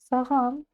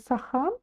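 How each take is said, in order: First: The middle consonant is a voiced g sound. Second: The middle consonant is a breathy h sound. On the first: "а затем немножко звонче, и у нас получается саган" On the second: "сначала пробуем произнести сахан через букву Х"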